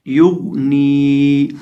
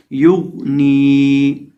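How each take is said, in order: First: युग नी slow, lips rounded on युग; rounded-lip recitation. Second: युग नी again, lips round, heavy गोइन, slow; rounded-lip recitation. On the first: Teacher recites युग नी so students copy the sound. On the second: Teacher repeats युग नी slowly. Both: Shown as a demonstration. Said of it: "होंठों को गोल करके".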